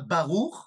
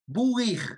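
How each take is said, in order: First: The second syllable has an 'oo' vowel. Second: The second syllable has an 'ee' vowel. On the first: "ils disent pas baruch" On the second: "ils ne prononcent pas le shuruk ou, mais ils le prononcent i"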